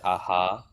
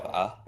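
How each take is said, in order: First: An echo vowel is added after the h. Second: It ends on the h with no vowel. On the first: "they'll say it as aha" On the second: "instead of ah"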